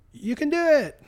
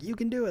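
First: High, loud encouraging yell; cheering shout. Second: High but weaker, doubtful encouragement; half-hearted cheer. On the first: Imitating the obstacle staff cheering the limping runner, high loud yell. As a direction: shout encouragement across the course. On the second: Imitating the staff doubting he can finish the monkey bars, a half-hearted high cheer. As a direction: cheer without believing it. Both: Retold or imitated.

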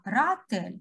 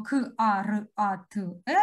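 First: "каратель" read whole, not letter by letter; by syllables. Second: "К, А, Р, А, Т, Е" said letter by letter with breaks. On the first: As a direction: read "каратель" as one word in flowing syllables. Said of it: "а ми читаємо". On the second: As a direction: spell out "К, А, Р, А, Т, Е" as separate letter sounds. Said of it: "ми не читаємо". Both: Shown as a demonstration.

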